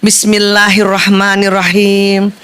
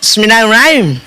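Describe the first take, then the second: First: It is recited carefully, without hurrying. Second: It is recited quickly, in a rush.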